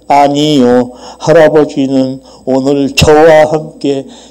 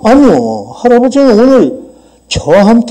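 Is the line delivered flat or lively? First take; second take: flat; lively. First: It is read aloud in a flat, schoolchild way. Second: It is spoken in a lively, realistic way. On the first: It sounds like a young child reading a text. The speaker calls it wrong. "이렇게 하면 이게 초등학교 일 학년이란 말이에요" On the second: It sounds like real conversation. The speaker calls it right. "뭐 이렇게 이제 리얼하게 해줘야 돼"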